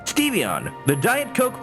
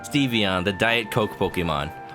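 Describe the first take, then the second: First: It is said in a put-on robotic announcer voice. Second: It is said in the speaker's normal voice.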